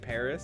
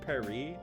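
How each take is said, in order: First: It is pronounced with an English sound. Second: It is pronounced with a French sound. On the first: "Don't say Paris" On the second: "it's Paris"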